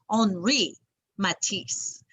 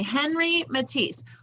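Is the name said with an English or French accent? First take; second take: French; English. First: The name is said with a French accent. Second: The name is said with an English accent.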